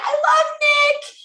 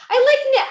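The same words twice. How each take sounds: First: Love drawn out, much higher and slower; stress on love. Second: Much higher, louder fangirl gush; gushing squeal. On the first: Presenter correcting herself to love, swooning on love. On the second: Presenter spotting Nick's post, gushing in a high squeal. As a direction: squeal over the teacher's post. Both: Real, not acted. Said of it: "I sound terrible".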